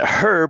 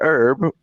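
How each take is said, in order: First: The word starts with a clear h sound. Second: The word starts without an h sound. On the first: The speaker calls it right. "We pronounce it herb because there's a fucking H in it" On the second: The speaker calls it wrong. "You pronounce it herb"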